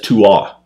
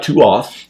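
First: The final th sound is silent. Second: The final th sound is pronounced. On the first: The speaker calls it right. "the TH on the end is silent" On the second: The speaker calls it wrong. "it looks like Tuath"

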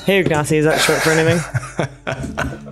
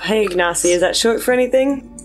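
First: It is spoken in a deliberately low, deep voice. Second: It is spoken in an ordinary speaking voice.

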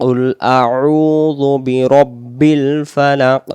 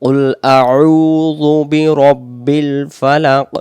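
No difference in how they are said.

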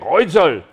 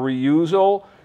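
First: The name is said with a German pronunciation. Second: The name is said with an American pronunciation. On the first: "The Germans say Reuzel" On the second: "The Americans say Reuzel or Reuzel"

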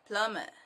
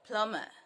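The two takes are said the same way.

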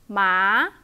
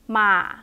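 First: The pitch rises from low to high. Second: The pitch is short and low. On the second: "short low one"

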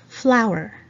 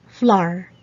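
First: The word is said in the standard way. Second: The word is said in a nonstandard way. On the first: The speaker calls it right. "but actually it's supposed to be" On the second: The speaker calls it wrong. "We usually say in the Philippines"

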